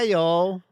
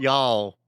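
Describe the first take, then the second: First: It has only a mild Southern twang. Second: It has a strong, drawn-out Southern twang. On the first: The speaker calls it wrong. "Have I got the right American accent" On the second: The speaker calls it right. "Make it a little more twangy"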